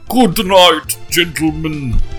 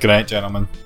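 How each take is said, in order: First: It is said in a Dracula accent. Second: It is said in a normal voice.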